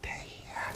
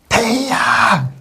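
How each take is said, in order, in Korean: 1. 이 단어는 낮고 평평한 소리로 말해요. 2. 이 단어는 높은 소리로 말해요. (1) "대야 대야 이렇게 하면 평성이라고 했죠" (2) "거성은 대야! 가장 높은 소리니까"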